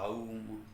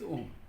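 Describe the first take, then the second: First: The vowel is drawn out like a yawn. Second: The vowel is a short, single om sound. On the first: The speaker calls it wrong. "I've seen some people chanting like that also" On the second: The speaker calls it right. "It's om"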